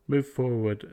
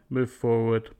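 No difference in how they are said.

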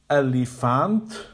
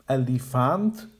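First: The second and third vowels are full vowels. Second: The same.

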